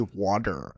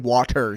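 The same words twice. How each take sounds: First: The middle consonant is a soft D sound. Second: The middle consonant is a crisp T sound. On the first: This is how people from the speaker's region say it. "we say water ... we use a D as a T" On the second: This is how people elsewhere say it. "we don't say water"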